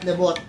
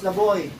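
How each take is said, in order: First: The name ends with a final t sound. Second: The name ends without a final t sound. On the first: The speaker calls it wrong. "not Lebot" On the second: The speaker calls it right. "It's a French word, so it's pronounced Leboy"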